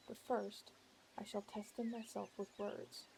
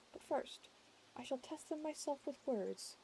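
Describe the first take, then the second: First: Said in the usual way. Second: Pitched up higher; raised pitch. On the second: Shown as a demonstration. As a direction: lift the voice higher.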